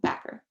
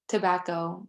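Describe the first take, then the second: First: The first syllable is dropped; ends in -er. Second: All three syllables are pronounced.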